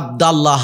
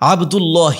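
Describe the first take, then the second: First: The vowel before 'llah' is a. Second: The vowel before 'llah' is u. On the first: The speaker calls it wrong. "ভয়ঙ্কর ভুল" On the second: The speaker calls it right. "দরকার ছিল"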